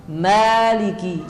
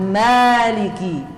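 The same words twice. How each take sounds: Both takes have the same delivery.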